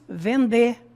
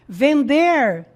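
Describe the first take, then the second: First: The final R is dropped. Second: The final R is clearly pronounced.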